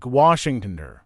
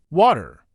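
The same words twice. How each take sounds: First: "Washingtoner" as an American rendering of water; American pronunciation. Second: "water" with a clear T; British pronunciation. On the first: English teacher showing learners American water, American pronunciation. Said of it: "may pronounce it more like". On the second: English teacher showing learners British water, clearly pronounced T. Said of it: "pronounce the T more clearly". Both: Shown as a demonstration.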